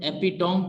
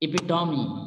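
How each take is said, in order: First: The word ends in 'tome' with no final vowel. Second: The word ends with a final 'ee' sound. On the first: The speaker calls it wrong. "मिस pronounce है" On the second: The speaker calls it right. "Correct pronunciation"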